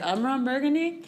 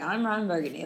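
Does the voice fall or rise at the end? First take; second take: rises; falls. First: The voice rises at the end, like a question. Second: The voice falls at the end, like a statement.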